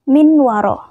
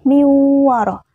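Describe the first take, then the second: First: The n is pronounced clearly before the w. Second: The n merges into a nasalized w. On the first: The speaker calls it wrong. "Tidak min waro" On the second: The speaker calls it right. "maka harus dibaca min waraihim"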